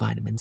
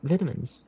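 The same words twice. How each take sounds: First: It is said in an American accent. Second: It is said in a non-American accent. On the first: The speaker is playing a role. "I have never heard you say vitamins with an American accent before" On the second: This is the speaker's own usual pronunciation. "that's how I pronounce it"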